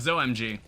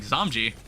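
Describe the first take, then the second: First: It is said like zo plus the letters OMG. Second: It is said as one word, like zombie. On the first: The name is a play on OMG. "I kind of understand why it's like pronounced that way" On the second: The name is a play on zombie. "that's what it sounds like, Zomji"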